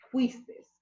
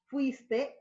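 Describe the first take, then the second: First: The word ends in an extra s sound. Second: The word ends in a vowel sound. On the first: The speaker calls it wrong. "en vez de" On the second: The speaker calls it right. "la normativa exige una correcta pronunciación"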